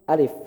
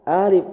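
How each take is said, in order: First: The first vowel is held short. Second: The first vowel is drawn out long. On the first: The speaker calls it right. "alif satu harokat" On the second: The speaker calls it wrong. "Jangan alif"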